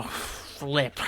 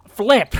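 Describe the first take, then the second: First: "flip" breathed out much softer under the breath; muttered curse. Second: "Flip!" barked out higher and louder; angry outburst. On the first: Gamer alone at his desk, fuming over ruined footage, curses very softly. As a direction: swallow the curse "flip" almost silently. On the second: Gamer blowing a gasket over his lost footage, loud angry yell. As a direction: explode on the word "Flip!". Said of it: "I'm gonna blow a gasket". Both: Real, not acted.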